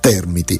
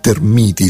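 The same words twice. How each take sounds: First: The stress is on the first syllable. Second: The stress is moved off the first syllable. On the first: It names the insects. "con l'accento sulla prima sillaba" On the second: It names the flammable chemical compound. "spostando l'accento"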